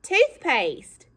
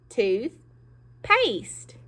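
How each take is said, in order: First: Said in the usual way. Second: "Toothpaste" said slowly as "Tooth"... "paste"; split into two parts. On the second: Shown as a demonstration. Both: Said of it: "I heard some of you say".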